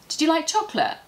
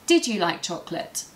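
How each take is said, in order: First: The words run together, with you reduced. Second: Each word is pronounced fully and clearly. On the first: "if I speak to my friend, I might say" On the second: "Here I'm pronouncing all the words correctly and it's easy to understand"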